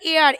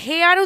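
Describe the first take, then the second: First: The word begins with a vowel sound. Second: The word begins with an h sound. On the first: The speaker calls it right. "এইচ এর উচ্চারণটা প্রায় করা হয় না" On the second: The speaker calls it wrong. "আমরা এটা হেয়ার উচ্চারণ করি না"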